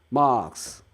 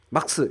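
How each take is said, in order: First: The first vowel is drawn out long. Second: The first vowel is short and clipped. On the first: The speaker calls it right. "장음으로 빼는 게 아 발음의 핵심이죠" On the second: The speaker calls it wrong. "이러면 안 되고 못 알아듣고"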